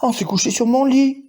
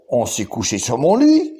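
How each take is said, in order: First: It is said in Mama Bear's medium voice. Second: It is said in Papa Bear's deep voice.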